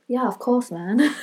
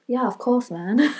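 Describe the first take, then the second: First: It is said in a put-on British accent. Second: It is said in a put-on British accent.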